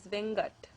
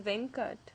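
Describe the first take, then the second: First: The consonant after the n is a g sound. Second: The consonant after the n is a k sound. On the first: "they have substituted that ka sound for a ga" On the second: "another common Tamil name is Venkat"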